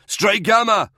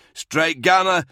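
First: Louder and higher repeated yell. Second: Loud, high call with a falling end; yelling. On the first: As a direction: call again, more urgently. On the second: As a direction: yell the call sign for help. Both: A narrator's reading. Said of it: "Dower yelled".

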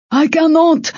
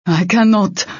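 First: High-pitched desperate-sounding shout. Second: Restrained protest, pitched up. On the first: Icy refusing to fight mid-battle, shouted. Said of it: "Icy shouted". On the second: Icy refusing to fight mid-battle, restrained protest. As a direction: refuse under pressure, short of a shout. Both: A narrator's reading.

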